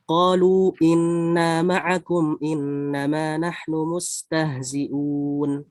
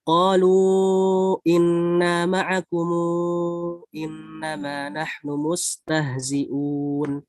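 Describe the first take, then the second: First: Long vowels held briefly; 'kum' ends closed. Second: Long vowels held longer; 'kum' stretched to 'kumu'. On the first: "qasr ma'al iskan" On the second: "tawasud munfasil, disertai dengan di sini ada silah. Tapi silahnya di sini dipanjangkan empat harokat"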